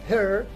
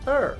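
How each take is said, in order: First: The word starts with an audible h sound. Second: The word starts with a vowel, no h. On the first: The speaker calls it wrong. "not her" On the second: The speaker calls it right. "but er"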